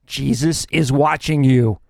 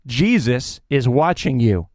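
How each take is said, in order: First: Slow, low and eerie voice from the dark; like an unseen voice warning a thief; mysterious voice. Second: Even lower and slower, eerie voice from the dark; mysterious voice again. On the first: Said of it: "he hears a voice saying". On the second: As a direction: lean into the ghostly warning. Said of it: "he hears the voice again". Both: A narrator's reading.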